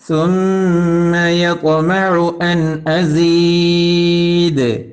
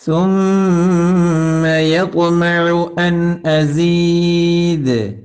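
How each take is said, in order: Both takes have the same delivery.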